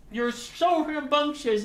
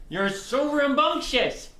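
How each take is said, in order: First: Slow, high cooing, stress on so; slow high pet voice, "so" stretched; doting pet talk. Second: Slow, high cooing to a dog; doting pet talk. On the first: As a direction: lean on "so" while cooing. Cooing at the dog. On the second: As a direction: draw it out sweetly to the pet. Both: Real, not acted.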